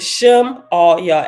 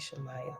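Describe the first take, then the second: First: It is said as Shem-aw-yay. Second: It is said the familiar way, Shemaiah. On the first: "Shemaiah is pronounced Shem Arya" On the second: "I'm gonna say Shemaiah"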